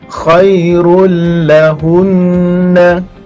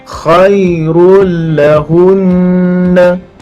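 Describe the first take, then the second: Both takes have the same delivery.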